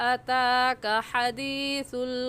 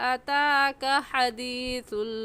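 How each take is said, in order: The two takes are said the same way.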